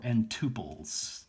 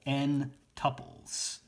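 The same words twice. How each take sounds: First: "tuples" said TOO-pulls, with a long oo; alternative pronunciation. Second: "tuples" said TUP-ulls, rhyming with couples; first pronunciation variant. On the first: Lecturer offering the other pronunciation, "tuples" as TOO-pulls. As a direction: say "tuples" starting like the word two. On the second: Lecturer naming n-element sets, "tuples" pronounced TUP-ulls. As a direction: say "tuples" with a short U, as in cup. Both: Shown as a demonstration. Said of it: "depending on how you want to pronounce it".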